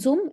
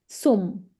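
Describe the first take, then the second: First: The word begins with a buzzing z sound. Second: The word begins with a hissing s sound. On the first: The speaker calls it wrong. "So it's not zum" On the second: The speaker calls it right. "Z in German has to be pronounced like sir"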